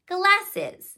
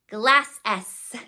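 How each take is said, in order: First: The ending is pronounced as an extra syllable. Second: The word ends with a separate, detached S sound. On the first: The speaker calls it right. "we change our voice and it's glasses" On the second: The speaker calls it wrong. "They might think it's glass S"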